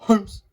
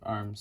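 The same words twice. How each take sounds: First: The word begins with an added H sound. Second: The word begins directly with the vowel. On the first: The speaker calls it right. "arms is pronounced H sound" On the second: The speaker calls it wrong. "instead of arms"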